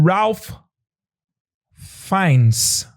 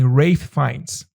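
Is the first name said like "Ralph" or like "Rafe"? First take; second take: Ralph; Rafe. First: The first name is said like "Ralph". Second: The first name is said like "Rafe".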